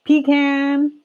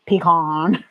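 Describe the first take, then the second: First: Higher-pitched pecan ending like the word can; pecan as pee-CAN. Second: Pecan with an open "ah" in the second syllable; pecan as pee-KAHN. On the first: Repeating it for viewers, pecan as pee-CAN. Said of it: "I say pecan". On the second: Showing viewers own way of saying it, pecan as pee-KAHN. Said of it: "That's how I say it". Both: Shown as a demonstration.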